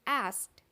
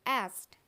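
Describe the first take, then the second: No difference in how they are said.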